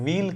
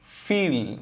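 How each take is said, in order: First: The word begins with a v sound. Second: The word begins with an f sound. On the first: The speaker calls it wrong. "வீல் கிடையாது" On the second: The speaker calls it right. "அது ஃபீல்"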